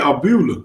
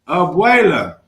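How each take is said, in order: First: The middle is said as 'bu'. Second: The middle is said as 'bweh'. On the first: The speaker calls it wrong. "What did I say?" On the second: The speaker calls it right. "Google on board with that"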